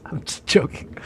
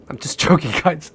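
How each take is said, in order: First: Hushed take-back of a joke; whispered. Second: Laughing through I'm just joking; laughing off his own joke. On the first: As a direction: whisper I'm just joking under the breath. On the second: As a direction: giggle it off. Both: Real, not acted. Backing off a drug joke.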